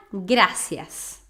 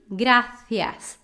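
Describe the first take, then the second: First: "gracias" with a plain s, drawn out; Latin s. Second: "Gracias" said grathias, tongue between teeth; Castilian lisp. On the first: Teacher contrasts the Latin "gracias" with plain s. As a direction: say "gracias" with a clear s, no lisp. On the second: Teacher shows the lisped Castilian "Gracias". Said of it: "C I também ... entre os dentes". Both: Shown as a demonstration.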